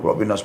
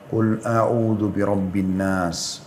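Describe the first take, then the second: First: It is recited fast, in a hurry. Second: It is recited slowly, then a pause.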